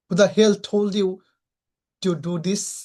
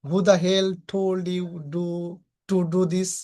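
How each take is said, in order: First: It is said with an angry tone. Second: It is said flatly, with no anger. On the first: The speaker calls it right. "তখন আমরা এটা বলবো" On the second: The speaker calls it wrong. "শুধু আমি যদি বলি ... এভাবে বললে হবে না।"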